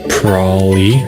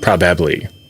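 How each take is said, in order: First: The middle syllable is dropped, a shortened word. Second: Every syllable is pronounced, the full word.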